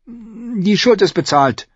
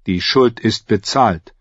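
First: Put-on high, slow girl's concession; reluctant agreement. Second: Slow, even pronouncement; measured assassin. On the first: Girl conceding to the assassin, high and reluctant. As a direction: echo it unwillingly in a high girl's voice. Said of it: "stimmte Arya widerwillig zu". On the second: Assassin telling the girl they are even, slow and final. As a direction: declare it slowly, with finality. Jaqen declares the debt settled. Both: A narrator's reading.

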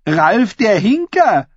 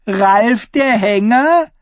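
First: High, slow "Hinker" with the pitch falling; "Hinker" drawn out and closed downward; falling tune on Hinker. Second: High, slow "Hänger" lifting into a question; "Hänger" punched and drawn out, ending high; rising stress on Hänger. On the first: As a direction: call out the nickname, letting "Hinker" drop at the end. Taunt sets nickname against twisted one. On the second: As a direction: land the pun by stretching "Hänger" upward. Punchline twists the nickname. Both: A narrator's reading.

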